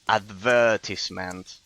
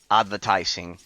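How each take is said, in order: First: It is said with a British pronunciation. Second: It is said with an American pronunciation. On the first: This is the older, original form. "the original and correct, let's say, Eng- the original uh, pronunciation in English" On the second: This is the form most people use now. "American tunes were so influential"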